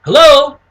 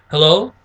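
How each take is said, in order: First: Loud, high-pitched phone hello; upbeat prospect. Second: Understated phone hello. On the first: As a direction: answer the call with a big lively lift. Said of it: "you wanna mirror it". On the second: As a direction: answer the call in an unexcited voice. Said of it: "you wanna relate to them". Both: Shown as a demonstration.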